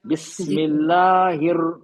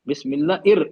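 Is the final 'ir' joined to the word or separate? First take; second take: joined; separate. First: The 'ir' joins the word with an h sound. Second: The 'ir' starts separately with a glottal catch. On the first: The speaker calls it right. "हिर" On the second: The speaker calls it wrong. "इर इर नहीं है, हमजा नहीं है"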